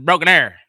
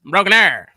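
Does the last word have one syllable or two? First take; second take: one; one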